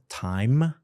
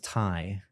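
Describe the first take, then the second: First: The final consonant sound is clearly pronounced. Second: The final consonant sound is cut off. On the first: The speaker calls it right. "they will often cut off the last sound" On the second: The speaker calls it wrong. "time becomes tie"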